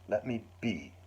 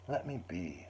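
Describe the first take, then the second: First: It is said with strong, intense feeling. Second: It is said in a friendly, mild way.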